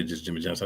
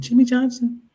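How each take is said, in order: First: Said in the usual way. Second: JIMMY JOHNSON pitched way up and loud; extra on JIMMY JOHNSON. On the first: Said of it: "I didn't say just Jimmy Johnson". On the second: Shown as a demonstration. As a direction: punch up "Jimmy Johnson" with high, loud flair. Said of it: "Had to put a little bit of extra".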